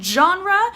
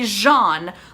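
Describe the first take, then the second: First: It begins with a hard J sound. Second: It begins with a soft ZH sound. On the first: "Is it the J" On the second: "or should it be Jean, like Jean Valjean?"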